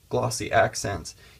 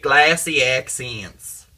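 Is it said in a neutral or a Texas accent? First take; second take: neutral; Texas. First: It is said in her ordinary accent. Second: It is said in a Texas accent.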